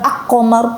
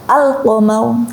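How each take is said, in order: First: The l merges into the following q sound. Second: The l is pronounced clearly before the q. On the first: The speaker calls it wrong. "bukan ak-qamar, bukan" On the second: The speaker calls it right. "al-qamar dibaca jelas"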